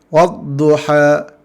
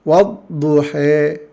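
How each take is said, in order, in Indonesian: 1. Vokal akhirnya adalah a terbuka yang jelas. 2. Vokal akhirnya condong kuat ke bunyi e. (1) "bacaan fathahana dibaca dengan fat, baris atas" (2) "Bacaan imalah"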